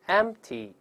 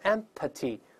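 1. p 闭住不出声，没有气流冲出。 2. p 爆破时会带出一股气。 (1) "失去爆破了，只做动作，但是没有喷出来" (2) "所以你看我没有读成empty"

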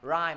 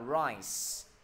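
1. Âm cuối không phải là âm s. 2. Âm cuối là âm s. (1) "mình không đọc là rice" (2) "mà đọc là"

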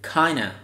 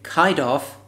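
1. กลืนรวมเป็นคำเดียวที่ออกเสียงย่อ 2. พูดเป็นสองคำเต็มแยกกัน (1) "หรือ" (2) "พูดอาจออกเสียงเป็น"

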